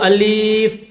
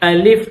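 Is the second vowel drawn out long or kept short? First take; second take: long; short. First: The second vowel is drawn out long. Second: The second vowel is kept short. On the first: The speaker calls it wrong. "इसको अलीफ खींच कर नहीं पढ़ेंगे" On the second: The speaker calls it right. "इसको पढ़ने का सही तरीका यह है"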